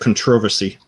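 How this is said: It is said with a British stress pattern.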